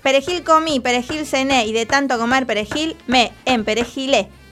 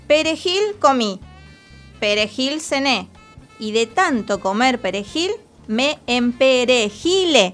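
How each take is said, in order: First: It is said at a somewhat faster pace. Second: It is said at a very slow pace. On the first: "pruebo yo un poquitín más rápido" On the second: "Lo voy a decir muy despacio"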